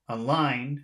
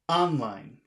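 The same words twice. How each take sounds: First: The stress is on the second syllable only. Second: The stress is on the first syllable only. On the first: "If you say just the second syllable, online, again, that doesn't really" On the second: "if you say it just on the first word, online, that doesn't make that sounds horrible"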